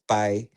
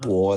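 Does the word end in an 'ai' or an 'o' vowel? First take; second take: ai; o. First: The word ends in an 'ai' vowel. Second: The word ends in an 'o' vowel. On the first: "the other is" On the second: "One is"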